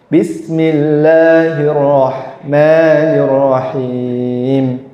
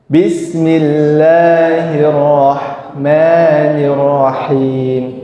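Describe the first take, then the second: The two takes are said the same way.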